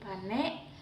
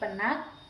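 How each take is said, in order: First: The word is said in the A dialect form. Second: The word is said in the Malay dialect form. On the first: "Yang kedua dialek A" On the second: "Yang pertama dialek Melayu. Penyebutannya seperti"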